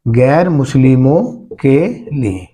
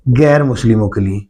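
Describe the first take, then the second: First: Slow, word-by-word teacher's dictation; drawn-out words, spaced for writing down. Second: Said in the usual way. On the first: Real, not acted. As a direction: spell it out slowly for note-takers. Teacher repeats point for note-taking.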